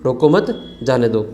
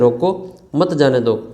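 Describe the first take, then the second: First: The pause comes after the second word. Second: The pause comes after the first word. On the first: Do not stop him; let him go. "दूसरा वाला कह रहे हैं कि रोको मत जाने दो" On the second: Stop him; do not let him go. "रोको उसको मत जाने दो"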